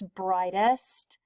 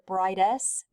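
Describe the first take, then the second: First: The final T sound is clearly pronounced. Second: The final T sound is left off. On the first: The speaker calls it right. "but it's brightest" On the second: The speaker calls it wrong. "we forget to say the T sound"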